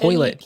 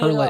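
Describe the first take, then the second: First: The first vowel is an 'oy' sound. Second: The first vowel is an 'er' sound. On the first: "She she says toilet" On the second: "not turlet. No offense, turlet people"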